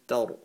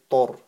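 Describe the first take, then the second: First: The vowel is light and open, like 'a'. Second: The vowel is heavy and rounded, like 'o'. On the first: The speaker calls it right. "then tar" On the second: The speaker calls it wrong. "Try not to say tor, okay? Because it's not full mouth"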